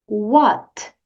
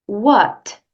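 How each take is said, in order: The two takes are said the same way.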